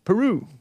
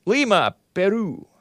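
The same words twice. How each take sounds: First: Said in the usual way. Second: Lima, Peru in crisp Spanish, tapped r in Peru; Spanish pronunciation. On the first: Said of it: "we pronounce it Peru". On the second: Shown as a demonstration. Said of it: "pronounces it, it all s-, in Spanish".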